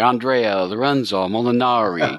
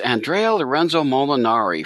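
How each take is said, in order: First: The name is said with an exaggerated Italian accent. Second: The name is said in a plain, unaccented way.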